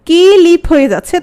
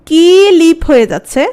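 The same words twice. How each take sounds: No difference in how they are said.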